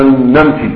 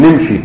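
First: "نمشي" as namshi, with a fatha on the nun; standard Arabic pronunciation. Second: "نمشي" as nimshi, with a kasra on the nun; colloquial pronunciation. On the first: Teacher giving students another correct example, classical namshi for "نمشي". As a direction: say "نمشي" with a in the first syllable: namshi. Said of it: "اللغة الصحيحة أن تقول". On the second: Teacher contrasting the dialect form, colloquial nimshi for "نمشي". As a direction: say "نمشي" with i in the first syllable: nimshi. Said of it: "العامة تقول". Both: Shown as a demonstration.

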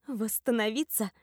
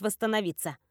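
First: Echoed question with a bitter edge; spiteful scoff. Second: Said in the usual way. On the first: A narrator's reading. Patient echoing a friend's word, scoffing with spite. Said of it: "усмехнулась я не без злости".

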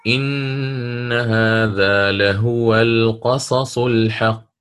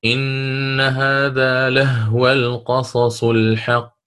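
First: Slow chanted recitation with لهو as "lahuwa", haa with damma; Warsh's reading, damma on haa. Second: Slow chanted recitation with لهو as "lahwa", haa sukun; Qalun's reading, silent haa. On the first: Teacher chants Warsh's reading for students, slow recitation. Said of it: "يقرأ بالضم". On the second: Teacher chants Qalun's reading for students, slow recitation. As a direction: chant لهو short, lah-wa, the haa with no vowel. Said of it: "بالإسكان". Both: Shown as a demonstration.

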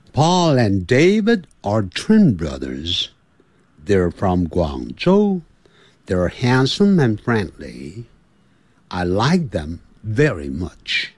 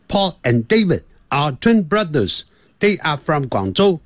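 First: Slow, stretched words, linked smoothly; drawn-out English vowels. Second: Choppy, word by word, cut apart; equal-length syllables, no linking, higher pitch; choppy English. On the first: Teacher showing beginners how to stretch each English word, drawn out slowly. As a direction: linger on every long vowel. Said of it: "这个要拉长". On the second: Teacher mimicking learners who don't stretch words, choppy and cut apart. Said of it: "那坑坑巴巴的，好像切断的感觉". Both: Shown as a demonstration.

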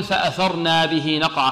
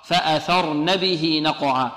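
First: فأثرنا with an added long a; slow demo of the mistake فأثرنا; الخطأ: فأثرنا; wrong reading. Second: فأثرن ending on a short nun; slow and careful فأثرن; النطق الصحيح: فأثرن; correct reading. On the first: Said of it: "البعض يقول". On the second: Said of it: "خطأ". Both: Shown as a demonstration.

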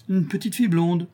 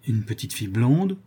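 First: Higher voice, echoing as an answer; old crone confirming. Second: Hesitant question, rising at the end; anxious questioning. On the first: Old woman confirming to the countess, crone's echo. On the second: Countess asking whether it was that child, anxious question. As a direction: ask it in disbelief, lifting the last word. Countess asks, old woman confirms. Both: Acted.

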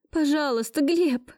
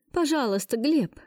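First: High, rushing plea; desperate plea. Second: Pleading. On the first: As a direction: cry out after him. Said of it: "кинулась я ему вслед". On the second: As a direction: beg him by name. Heroine begs ex for help. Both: Acted.

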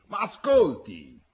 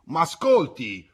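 First: Slow, high, loud repeated call, pleading; shouted again. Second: Slow, high, loud call to someone leaving; shouted after him. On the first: Giacco shouting again after Pietro, slow, loud and pleading. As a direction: call him back once more, insistent. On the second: Old Giacco shouting after the departing boy, slow and loud. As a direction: call out to stop him walking away. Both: A narrator's reading. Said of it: "Giacco gli gridò dietro".

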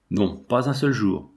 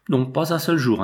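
First: Slower, with a weight on "seul"; slow, heavy refusal. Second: A sharp, frantic refusal; distraught interruption. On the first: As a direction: draw out the refusal, each word measured. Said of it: "sa mère éperdue". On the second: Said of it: "interrompit sa mère éperdue". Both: A narrator's reading.

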